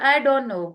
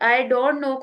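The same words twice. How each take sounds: First: The t sound is dropped and words blend. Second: The t sound in don't is clearly pronounced.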